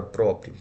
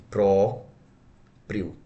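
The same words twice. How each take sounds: First: Said in the usual way. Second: "Próprio" split into pró and prio; separado em sílabas. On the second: Shown as a demonstration. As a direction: hold a clear pause between the syllables of "Próprio". ("Próprio" em duas sílabas bem separadas) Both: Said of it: "Como é que eu separo a palavra".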